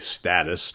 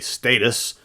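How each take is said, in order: First: It is said with an American pronunciation. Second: It is said with a British pronunciation. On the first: "here in America, we generally say status" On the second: "the Brits say status"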